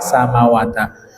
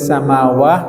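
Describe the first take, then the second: First: The word ends with a final ta syllable. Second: The word ends with a final h sound. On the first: The word is read as linked to the next word. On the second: The word is read with a pause at the end.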